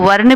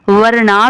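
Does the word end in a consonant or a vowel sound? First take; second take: consonant; vowel. First: The word ends on a consonant sound. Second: The word ends on a long vowel sound. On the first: "मैं इसको वर्ण भी पढ़ सकती हूँ" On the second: "वर्णा भी पढ़ सकती हूँ"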